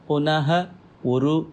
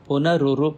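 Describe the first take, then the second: First: The two words are said separately, ending in h. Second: The two words merge into one with an r sound. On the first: "முதல்ல சொல்கிற போது பிரித்து சொல்லிவிட்டு" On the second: "சேர்ற போது அது வந்து புனருரு அப்படின்னு மாறும்"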